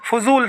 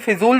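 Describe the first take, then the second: First: The first syllable has an 'a' vowel. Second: The first syllable has an 'i' vowel. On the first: The speaker calls it right. "फजूल सही होता है" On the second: The speaker calls it wrong. "वह गलत होता है"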